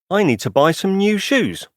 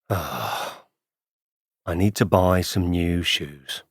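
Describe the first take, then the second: First: It sounds energetic and positive. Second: It sounds bored and unhappy.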